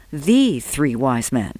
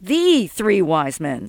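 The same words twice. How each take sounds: First: Slow, weighty stress on "The". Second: Mocking repeat. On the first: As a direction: draw out "The" as the one and only. Dominic corrects, stressing the article. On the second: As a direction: echo it back slowly, drawing out "The". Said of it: "Sol repeated". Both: A narrator's reading.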